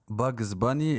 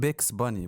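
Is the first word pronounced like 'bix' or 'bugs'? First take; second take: bugs; bix. First: The first word sounds like 'bugs'. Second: The first word sounds like 'bix'. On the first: The speaker calls it right. "اللي هو الكرتون" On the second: The speaker calls it wrong. "بعمره ما كان بيكس باني برو"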